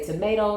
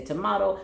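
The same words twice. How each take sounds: First: "tomato" said "to-MAY-to"; tomato with the American vowel. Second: "tomato" said "to-MAH-to"; tomato with the British vowel. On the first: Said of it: "Some people say tomato". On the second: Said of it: "some people say tomato". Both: Shown as a demonstration.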